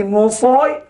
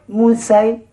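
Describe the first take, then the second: First: Musoy with the heavy emphatic s and rounded vowel; sad reading. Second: Musay with the light s and clear ai; sin reading. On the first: Teacher recalls the earlier sad reading, musoy darkened. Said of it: "tadi musoy". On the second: Teacher contrasts it with the sin reading, musay light. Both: Shown as a demonstration.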